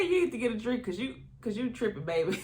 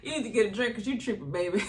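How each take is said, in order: First: A hint of Stormy's sassy accent; imitated sassy accent. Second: Fast, laughing sassy put-down; quick laughing mimic of a sassy accent; Stormy's accent. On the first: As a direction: mimic Stormy's sassy put-down, lightly. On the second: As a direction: tease "baby" the way Stormy said it, laughing. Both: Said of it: "That accent killed me too".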